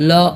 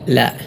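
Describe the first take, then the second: First: The L is heavy with a rounded 'o'-like vowel. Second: The L is light with a clear 'a' vowel. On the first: The speaker calls it wrong. "ലോ ലോ എന്നല്ല" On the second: The speaker calls it right. "ലാം നേരിയതായ രൂപത്തിലാണ് ഉച്ചരിക്കേണ്ടത്"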